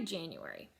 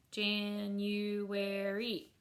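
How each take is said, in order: First: Said in the usual way. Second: "January" very slow, Jan-u-ar-y; four stretched, even-pitched beats on "January"; syllable by syllable. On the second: Shown as a demonstration. Teacher clapping a four syllable word, "January" split Jan-u-ar-y. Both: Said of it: "four syllable word".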